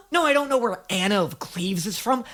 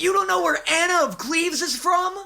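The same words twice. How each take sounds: First: Said in the usual way. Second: Higher, teasing scold of an imagined know-it-all; a snooty voice mocking his ignorance. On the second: Imagined critic scolding [name] about Cleves, in a higher mocking voice.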